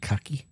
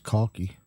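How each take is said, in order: First: The word is said with an American pronunciation. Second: The word is said with a British pronunciation. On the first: "in the U S they call it khaki" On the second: "in the U K it's I think it's khaki"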